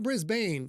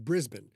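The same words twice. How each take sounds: First: It is pronounced the American way. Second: It is pronounced the local Australian way. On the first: The speaker calls it wrong. "not Brisbane, you American bitches" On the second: The speaker calls it right. "It's Brisbane"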